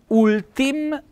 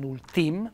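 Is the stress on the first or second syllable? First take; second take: first; second. First: The stress is on the first syllable. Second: The stress is on the second syllable. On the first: The speaker calls it right. "ci vorrebbe un bel accento appunto sulla U" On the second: The speaker calls it wrong. "non ultim"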